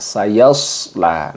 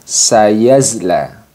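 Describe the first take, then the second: First: The middle consonant is a heavy, hissing emphatic s. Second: The middle consonant is a voiced z. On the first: The speaker calls it right. "Jadi seharusnya yaitu dengan sayasla" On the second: The speaker calls it wrong. "Kurang tepat ketika kita membaca sayasla ini dengan sayazla"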